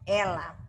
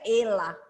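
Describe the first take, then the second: First: The first vowel is an open e. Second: The first vowel is a closed e. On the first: The speaker calls it right. "mas a pronúncia é ela" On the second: The speaker calls it wrong. "Se não ficaria ela, fica estranho"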